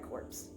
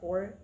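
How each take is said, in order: First: The word ends with a clear 'ps' sound. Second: The word ends without any 'ps' sound. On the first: The speaker calls it wrong. "You don't actually pronounce it corpse" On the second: The speaker calls it right. "you pronounce it core"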